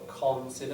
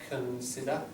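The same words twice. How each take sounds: First: The first syllable has a full, clear vowel. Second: The first syllable has a weak, reduced vowel. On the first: The speaker calls it wrong. "not consider" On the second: The speaker calls it right. "The vowel in it will be weak"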